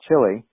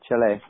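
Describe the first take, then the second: First: The name is said with an American pronunciation. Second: The name is said with its native pronunciation. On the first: The speaker calls it wrong. "We as gringos pronounce it Chile" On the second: The speaker calls it right. "but it's pronounced Chile"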